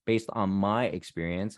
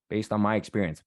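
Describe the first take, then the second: First: "my" stretched out in a slower phrase; stress on MY. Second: Said in the usual way. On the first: Real, not acted. Speaker limits the advice to their own experience, stress on "my". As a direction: lean slowly on the word "my".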